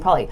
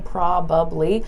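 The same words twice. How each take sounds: First: It is said fast with sounds dropped. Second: All three syllables are said clearly and fully. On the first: "I'm saying it very, very fast" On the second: "I'm not saying probably"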